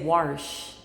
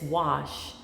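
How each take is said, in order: First: It is said with an r sound, like warsh. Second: It is said with no r sound at all. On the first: The speaker calls it wrong. "like W A R S H" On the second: The speaker calls it right. "and it's wash"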